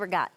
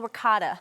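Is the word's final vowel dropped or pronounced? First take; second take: dropped; pronounced. First: The word is clipped with the final vowel dropped. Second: The word is said in full with final vowel. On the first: "I don't say regat" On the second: "I say the full real ricotta"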